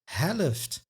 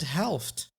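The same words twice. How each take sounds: First: An extra uh vowel splits the final consonants. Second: No extra vowel splits the final consonants. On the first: "this extra uh sound" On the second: "instead of"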